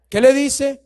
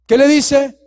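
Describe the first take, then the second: No difference in how they are said.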